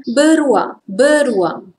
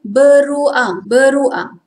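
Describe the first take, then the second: First: Everyday "beruang", syllables run together; informal Malay pronunciation. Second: Formal "beruang", syllables carefully separated; careful textbook "beruang"; formal Malay pronunciation. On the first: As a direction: say "beruang" casually, as ber-wang. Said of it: "We all say informal pronunciation". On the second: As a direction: say "beruang" fully, as be-ru-ang. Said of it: "formal pronunciation". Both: Shown as a demonstration.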